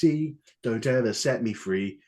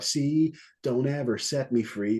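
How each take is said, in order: First: It is said in a British-sounding accent. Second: It is said in an American accent.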